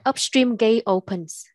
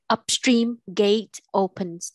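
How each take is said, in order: First: The words flow evenly with normal stress. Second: Every word is pushed out with heavy force. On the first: The speaker calls it right. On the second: The speaker calls it wrong.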